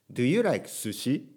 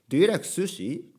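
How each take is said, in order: First: Slow question with a Japanese-intoned "sushi"; Japanese intonation in English. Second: "sushi" in English intonation, flowing into the question. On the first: (日本語のイントネーションの英語) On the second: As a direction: ask it fluently, "sushi" said the English way. (「sushi」を英語風に尋ねる) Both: Shown as a demonstration. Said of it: "日本語のイントネーションで英語で話したら".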